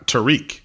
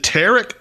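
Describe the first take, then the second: First: Tariq with stress at the end, tuh-REEK; Tariq pronunciation. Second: Tarek with stress up front, TARR-ik; Tarek pronunciation. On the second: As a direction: say Tarek as TARR-ik, short second syllable. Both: Shown as a demonstration. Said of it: "Is it Tarek or Ty-, Tariq?".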